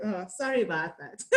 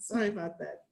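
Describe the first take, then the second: First: Apologising through a laugh; a sorry that breaks into laughter; giggly sorry with the words still clear; laughing apology. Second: Said in the usual way. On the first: Real, not acted. Laughs at her own accent slip.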